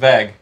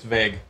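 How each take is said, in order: First: The vowel is a short, clipped A. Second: The vowel is a long, drawn-out A. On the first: This imitates how another person said it. The speaker calls it wrong. "You said vag" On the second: This is the usual pronunciation. The speaker calls it right. "it was a more elongated A"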